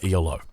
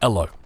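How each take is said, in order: First: It is spelled out as three separate letters. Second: It is said as a single two-syllable word. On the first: The speaker calls it wrong. "even though it's wrong, it feels right" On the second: The speaker calls it right. "as it should be called"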